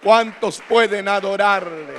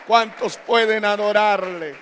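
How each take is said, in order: Both takes have the same delivery.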